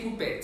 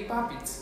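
First: "puppet" as poo-PET; oo in "puppet", then a crisp PET; wrong pronunciation shown. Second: "puppet" as PAH-pit; corrected pronunciation. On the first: Diction teacher showing what not to say, mistaken pronunciation. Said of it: "We don't say puppet". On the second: Diction teacher correcting the class on puppet, careful pronunciation. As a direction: open "puppet" with ah, ending in short pit. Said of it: "we say puppet". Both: Shown as a demonstration.

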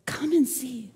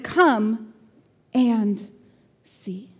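First: Soft "Come and see" as one phrase; quietly invite, without pauses between words; gentle invitation. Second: "Come", "and", "see" each set apart by a pause; word-by-word emphasis. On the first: Philip invites doubting Nathanael, gently and softly. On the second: Philip invites doubting Nathanael, "Come and see" in separate, weighty words. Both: Acted.

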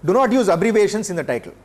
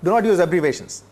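First: Not pressed down firmly; stress on not. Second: "not" hit again, falling and final; repeated stress on not. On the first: Lecturer warning students, stressing not. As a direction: lean on the word "not", firm and falling. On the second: Lecturer repeating the warning, stressing not. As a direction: drive the word "not" home. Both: Shown as a demonstration. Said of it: "This is very important".

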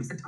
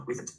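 First: Recent stressed on the second syllable; mis-stress recent as re-CENT; wrongly stressed recent. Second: Recent with the first syllable stressed. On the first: Teacher shows the class what to avoid, recent stressed on second syllable. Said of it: "不要读成recent啊". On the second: Teacher models the word recent for the class, first-syllable stress. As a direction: lean on the RE in recent. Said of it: "重音在第一音节叫做". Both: Shown as a demonstration.

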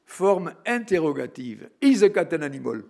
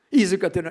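First: Louder teacher question stressing "Is"; mock schoolteacher quizzing the class; imitating the teacher asking. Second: Higher, louder "Is a cat an animal?" pressing for an answer; hammed-up teacher asking again into the silence; teacher repeating insistently. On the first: English teacher testing the silent class, loud. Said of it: "un exemple des premiers cours". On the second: Teacher pressing the silent class, higher and louder. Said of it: "il y avait le silence dans la salle".

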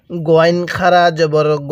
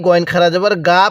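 First: Final "গ" as a long, rounded "gho"; correct rounded ghain. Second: Quick reading with "গা" in place of a rounded "go"; wrong "gaa" reading. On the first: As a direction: round the vowel of "গ" to o and stretch it. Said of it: "তাহলে কিভাবে পড়তে হবে". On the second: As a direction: end on an open "গা" with an aa vowel. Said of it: "পড়াটা সহি শুদ্ধ হবে না". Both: Shown as a demonstration.

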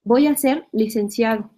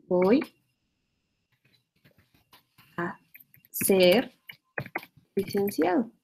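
First: Said in the usual way. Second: "Voy", "a", "ser", "licenciado" each split off by long pauses; word by word. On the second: Shown as a demonstration. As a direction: spell the phrase out, one word at a time with a pause between. (palabra por palabra, con pausas largas entre "Voy", "a", "ser" y "licenciado") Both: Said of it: "Por ejemplo".

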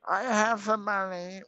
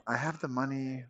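First: Put-on high, slow old granny voice; pitched-up slow grandma impression. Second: Said in the usual way. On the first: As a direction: play a sweet little grandma, drawn out. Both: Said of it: "pretend to be, like, a grandma".

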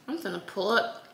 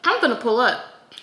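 First: Said in the usual way. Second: Louder, emphatic. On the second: Shown as a demonstration. Telling viewers her plan, louder and hyped. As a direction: announce it like you mean it.

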